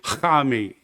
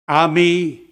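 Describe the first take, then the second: First: The word starts with a harsh throaty sound. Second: The word starts directly with a vowel. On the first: "They say Hami. It's pronounced like that" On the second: "as we do, like Ami"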